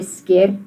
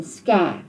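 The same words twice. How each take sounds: First: Sker with a short plain E. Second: Skêr with a long, drawn-out ê; stretched E. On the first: Teacher shows the wrong, unstretched vowel. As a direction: sker clipped, E not stretched. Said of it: "just an E sound on its own". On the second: Teacher shows the long ê the kappie marks. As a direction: hold the ê in skêr longer. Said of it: "you stretch out the E sound". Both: Shown as a demonstration.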